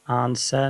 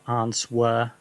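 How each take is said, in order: First: It is said with no W sound. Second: It is said with a W sound. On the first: The speaker calls it right. "you don't pronounce the W here. It's just answer" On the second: The speaker calls it wrong. "not answer"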